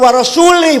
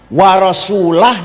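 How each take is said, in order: First: The word ends with the vowel i. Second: The word ends with the vowel u. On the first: God disowns the idolaters and the messenger. The speaker calls it wrong. "Allah tidak melindungi orang musyrik dan tidak melindungi Rasulullah" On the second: The messenger also disowns the idolaters. The speaker calls it right. "maknanya Allah tidak melindungi orang musyrik dan Rasulullah pun tidak melindungi orang musyrik"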